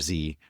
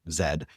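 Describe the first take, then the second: First: The letter is said as 'zee', American style. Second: The letter is said as 'zed', British style. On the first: "in American parlance" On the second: "they were all British, so he it's just, it's like Zed there"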